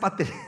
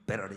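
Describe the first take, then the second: First: The middle t is a clear t. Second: The middle t is a soft flap. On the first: The speaker uses the local Korean way of saying it. The speaker calls it right. "한국은 한국식으로 말을 해줘야 돼" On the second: The speaker is showing off an American accent. The speaker calls it wrong. "자기 과시형으로 어, 베러리 베러리"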